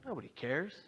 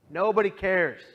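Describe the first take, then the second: First: Said in the usual way. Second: A sudden loud cry of despair; despairing outburst. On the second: Retold or imitated. Alone after leaving the bus, thinking nobody cares, loud despairing cry. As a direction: blurt it out loud, hurt and hopeless.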